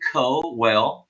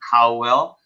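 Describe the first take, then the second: First: The first syllable does not sound like 'cow'. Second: The first syllable sounds like 'cow'. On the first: The speaker calls it right. "but it's actually Cowell. That's how it's pronounced" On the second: The speaker calls it wrong. "like C O W, Cowell"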